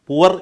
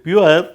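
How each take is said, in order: First: The word is said without a y sound. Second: The word is said with a y sound. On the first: He thinks this form sounds lowly. "പുവർ എന്ന് പറഞ്ഞാൽ എന്തോ കുറച്ചിലാണെന്ന്" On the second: He tries to sound posh. "പുള്ളി പ്യുവർ എന്ന് പറയാം"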